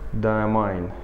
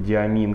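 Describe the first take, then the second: First: The name is said in a non-local way. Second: The name is said the local Russian way.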